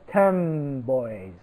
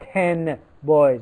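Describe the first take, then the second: First: The final sound of ten blends into the next. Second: The final sound of ten stays unchanged. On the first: The speaker calls it right. "We say" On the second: The speaker calls it wrong. "We do not"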